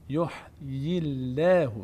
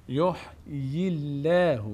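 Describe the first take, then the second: Both takes have the same delivery.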